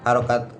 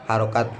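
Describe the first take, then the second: No difference in how they are said.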